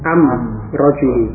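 The article is pronounced with an m sound.

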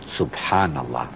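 It is said in an admiring, awed tone. Something beautiful is being admired. "yang pertama kalau ada yang dikagumi. Saya melihat pemandangan indah"

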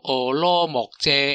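The name is pronounced with Taiwanese sounds. "台语其实应该读做俄罗木遮"

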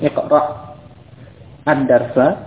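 The first word ends in silence before the second. "kalau memang mau dibaca terputus, ya, dengan sukun"

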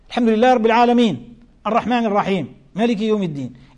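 There is a pause after each verse. Each verse ending is treated as a stopping point. "كان يقف على رؤوس الآيات"

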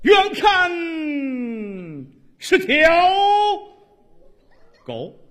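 It is said in a grand, theatrical recitation voice. The speaker calls it right. "你按话剧朗诵说这段死狗"

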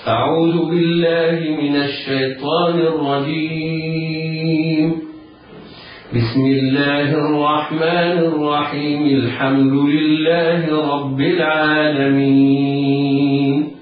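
There is a pause after the first phrase only. "الوقف على الاستعاذة ووصل البسملة بأول السورة"

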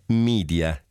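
It is said with an American English pronunciation. It apes an American way of speaking. The speaker calls it wrong. "e non media, in una vana e indisponente scimmiottatura di una pronuncia texana"

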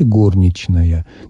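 It follows the old Petersburg literary norm. The speaker signals an old Petersburg literary background. "носителем старопетербургского варианта литературного произношения, произносите"

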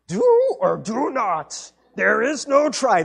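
It is said in an impression of Yoda.

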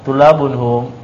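The pitch falls at the end, like a statement. It states that they are students. The speaker calls it wrong. "bacanya khobar"

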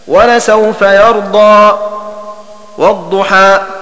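A brief silent break separates the two phrases. "والسكت دون بسملة على كل منهما هكذا"

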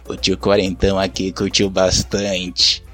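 It is said in a changed, creepy tone.

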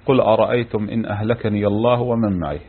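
The reading stops after the final phrase. It sounds like a wish for the destruction of the speaker and those with him. The speaker calls it wrong. "وقف موقف يعني غير مناسب"

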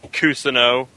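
The name is said with English pronunciation. The speaker calls it wrong.

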